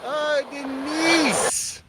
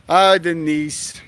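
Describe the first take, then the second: First: Soft, slow and high, moved by the donation; touched sigh. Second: Said in the usual way. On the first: Real, not acted. Streamer to donor Denise, slow and softly touched. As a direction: breathe her name out, touched.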